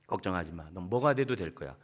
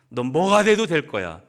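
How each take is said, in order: First: Lower, softer, tender; calm a disappointed son; gentle reassurance. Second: Louder, stressing 돼도; emphatic encouragement. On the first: (실망한 아들을 다독이는 부모, 낮고 부드럽게) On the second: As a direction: declare his future boldly. (아들에게 힘주어 외치는 격려) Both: Shown as a demonstration.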